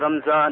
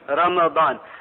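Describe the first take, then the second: First: The m runs into a z sound. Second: A vowel follows the m, then a d sound. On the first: The speaker calls it wrong. "Not as some people say" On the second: The speaker calls it right. "the correct pronunciation of Ramadan is Ramadan. بفتح الميم"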